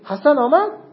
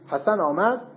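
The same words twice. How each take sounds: First: It is said with a questioning tune. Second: It is said with a plain statement tune. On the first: The speaker is asking whether Hassan came. "سوال میذارید" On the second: The speaker reports that Hassan came. "خبریه"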